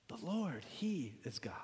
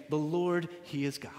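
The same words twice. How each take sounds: First: Hushed, whispered repeat of a proclamation; awed whisper. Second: Said in the usual way. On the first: Retold or imitated. Preacher echoes the people fallen on their faces, awed whisper. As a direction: let it fall away into a whisper. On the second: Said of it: "This is what they proclaimed".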